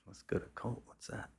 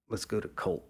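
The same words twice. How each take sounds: First: Softer, "Colt?" rising in disbelief; puzzled question. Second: Said in the usual way. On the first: Retold or imitated. Narrator repeats Charlie's idea, softly puzzled and rising. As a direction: echo the name back, baffled and quiet. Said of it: "I'm like". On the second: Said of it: "he goes".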